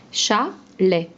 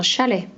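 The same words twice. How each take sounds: First: "Chalet" in two separate beats, cha, then let; split into syllables. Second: Said in the usual way. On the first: Shown as a demonstration. Teacher breaking a word up for a pupil, "Chalet" syllable by syllable. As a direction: say "Chalet" syllable by syllable with a clear pause between. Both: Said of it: "On enlève la deuxième syllabe".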